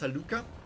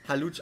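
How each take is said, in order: First: The middle consonant is said as k. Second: The middle consonant is said as sh. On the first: "it's probably pronounced Haluka" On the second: "if I see a C H, I pronounce it sh"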